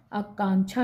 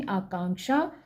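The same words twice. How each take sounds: First: आकांक्षा as aakaanchha, with छ; wrong consonant. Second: आकांक्षा as aakaanksha, with क्ष; correct consonant. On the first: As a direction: say छा for क्षा in आकांक्षा. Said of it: "आकांक्षा नहीं". (आकांक्षा में 'छा' बोलें) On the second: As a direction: sound k-sha at the end of आकांक्षा. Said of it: "क्षत्रिय वाला क्ष होएगा". (आकांक्षा में 'क्षा' बोलें) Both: Shown as a demonstration.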